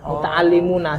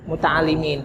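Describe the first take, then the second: First: The word ends with an 'una' sound. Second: The word ends with a short 'in' sound. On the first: The speaker calls it right. "Padahal yang betul adalah" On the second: The speaker calls it wrong. "sesungguhnya kami orang yang terpelajar"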